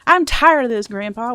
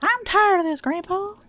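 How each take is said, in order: First: A hint of a whining kid; lightly acted kid quoting the movie; mildly voiced kid line. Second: Put-on high, whiny child's complaint; mock whining kid quoting the movie. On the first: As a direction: quote the kid with a little lift. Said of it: "reference point for the". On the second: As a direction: whine it like a fed-up kid. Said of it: "then is it even worth reading".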